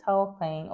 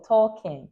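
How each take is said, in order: First: Tolkien said as "TAL-koyn"; Tolkien ending like "coin"; trial pronunciation. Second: Tolkien said as "TAW-kin"; Tolkien with no "oy", ending in "kin"; alternative pronunciation. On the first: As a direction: say Tolkien with an "oy" in the second syllable. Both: Shown as a demonstration. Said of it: "Is it Tolkien or Tolkien?".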